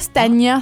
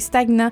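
First: The 'gn' is said as one 'ny' sound. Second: The g and n are said as separate sounds. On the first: The speaker calls it wrong. "c'est pas stagnant, c'est pas comme GN" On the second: The speaker calls it right. "non, c'est stagnant"

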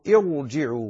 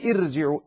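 First: The r is pronounced heavy and full. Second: The r is pronounced light and thin. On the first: The speaker calls it right. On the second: The speaker calls it wrong.

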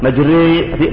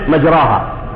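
First: The long vowel is tilted toward 'e'. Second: The long vowel is a plain open 'a'. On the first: "there is imala" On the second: "Arabic says majraha"

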